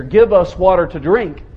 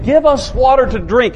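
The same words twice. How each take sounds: First: Demanding tone. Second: A serious, demanding tone, a touch rough; quarreling demand. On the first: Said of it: "serious, demanding kind of tone of voice". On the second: Preacher voicing the quarreling Israelites, mildly demanding. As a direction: demand it like thirsty, quarreling people. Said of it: "read this with a quarreling attitude". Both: Shown as a demonstration.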